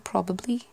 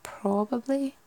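First: It is said in a neutral accent. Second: It is said in a Scottish-like accent, stressing the O. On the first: "You wouldn't really say probably" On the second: "emphasise the O a bit more... that'd be more Scottish"

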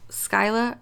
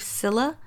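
First: The name begins with the word 'sky'. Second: The name begins with a short 'sill' sound. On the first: This is the speaker's own chosen version of the name. "That's how I pronounce it" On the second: This is the original standard version of the name. "The actual pronunciation is, I believe"

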